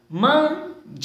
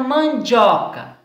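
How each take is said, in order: First: "mandioca" broken up as man, di, o, ca with pauses; split into syllables. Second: Said in the usual way. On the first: Shown as a demonstration. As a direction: say "mandioca" syllable by syllable, each one held apart. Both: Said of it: "tenham separado as sílabas".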